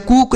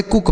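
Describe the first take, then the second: First: कुक with a long oo, as कूक; misread long vowel. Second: कुक with a short u; correct short vowel. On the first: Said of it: "इसे हम कुक नहीं पढ़ते". (कुक को बड़े ऊ से कूक जैसा बोलना) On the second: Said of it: "कुक पढ़ते हैं". (कुक में छोटे उ की मात्रा) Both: Shown as a demonstration.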